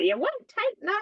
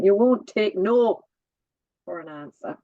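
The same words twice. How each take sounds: First: Annoyed mum. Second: Put-on Welsh accent. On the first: Retold or imitated. Daughter quoting her mum's telling-off, mock annoyed. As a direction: imitate an exasperated mother, pitched right up. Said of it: "would get very annoyed with me". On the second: Daughter redoing mum's telling-off in a Welsh accent. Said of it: "say it in the Welsh accent".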